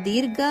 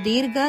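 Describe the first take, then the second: Both takes have the same delivery.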